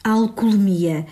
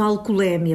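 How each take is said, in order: First: Alcoolemia with a closed E, stress on "mi"; correct pronunciation. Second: Alcoolémia with an open stressed É; wrong pronunciation. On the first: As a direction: say alcoolemia, stress falling on "mi", no open é. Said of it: "a pronúncia correta é". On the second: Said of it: "a pronúncia errada é alcoolémia". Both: Shown as a demonstration.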